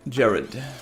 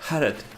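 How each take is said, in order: First: The name is said with an English accent. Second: The name is said with a Spanish accent.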